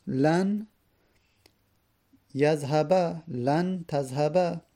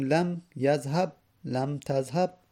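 First: یذهب and تذهب each ending in a clear, drawn "-ba"; fatha ending. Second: یذهب and تذهب stopped on the b; sukun ending. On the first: Teacher showing the particle lan, fatha ending. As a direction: sound the final a on یذهب and تذهب, unhurried. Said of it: "منصوب شد به فتحه". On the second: Teacher showing the particle lam, sukun ending. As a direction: close یذهب and تذهب on a bare b, no final vowel. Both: Shown as a demonstration.

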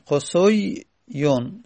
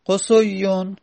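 First: قصویون drawn out slowly, sound by sound, rising at the end; slow spelled-out word. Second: Said in the usual way. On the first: Shown as a demonstration. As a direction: stretch out قصویون slowly for students. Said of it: "slow drilled repeat of the form". (قصویون را آهسته و کشیده، هجا به هجا بگو) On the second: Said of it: "teacher says then drills the form".

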